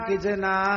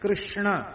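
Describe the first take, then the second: First: The name is said loosely, like 'kichna'. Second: The name is said with its full consonant cluster. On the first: The speaker calls it wrong. "Bengali बहुत अच्छा कीर्तन करते हैं और कहते" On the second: The speaker calls it right. "ये शुद्ध उच्चारण है"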